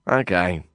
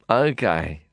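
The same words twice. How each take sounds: First: Feigned smile. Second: Said in the usual way. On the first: A narrator's reading. Narrator pretending to cooperate with Nazir, smiling falsely. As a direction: fake friendly okay with a smile. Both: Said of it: "I said, feigning a smile".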